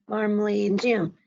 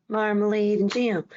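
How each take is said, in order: The two takes are said the same way.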